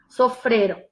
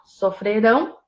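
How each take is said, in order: First: The stress is on the second-to-last syllable. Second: The stress is on the last syllable. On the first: The action happened in the past. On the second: The action will happen in the future.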